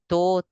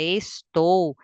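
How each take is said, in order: First: The word is clipped to one short syllable. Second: The word is said in full, all syllables. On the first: The speaker calls it wrong. "e não assim" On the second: The speaker calls it right. "complete a frase"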